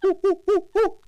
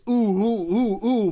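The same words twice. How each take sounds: First: The ooh noises sound like a monkey. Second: The ooh noises do not sound monkey-like. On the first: The speaker calls it right. "There we go" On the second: The speaker calls it wrong. "that didn't sound like a monkey"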